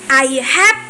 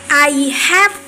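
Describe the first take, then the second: Both takes have the same delivery.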